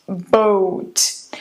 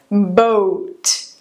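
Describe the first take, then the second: Both takes have the same delivery.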